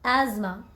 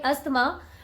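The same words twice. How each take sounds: First: It is pronounced the English way. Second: It is pronounced the Hindi way. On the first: "in English, there is just one way to pronounce this word" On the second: "In Hindi, you can call it asthma"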